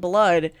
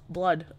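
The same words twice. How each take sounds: First: The word sounds pleased and eager. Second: The word sounds disgusted and put off. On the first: The taste of blood is enjoyed. "bite my lip or something and I taste blood, I'll be like" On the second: The sight of blood is unwelcome.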